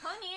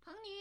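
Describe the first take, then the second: First: It is said loudly, not high. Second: It is said in a high pitch.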